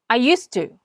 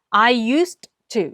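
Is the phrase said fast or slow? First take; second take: fast; slow. First: It is said quickly with the d barely heard. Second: It is said slowly, each word separated. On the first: "빠르게 말할 때는 ... D자를 거의 안 들리게 합니다" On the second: "I used to 이렇게 읽었는데요"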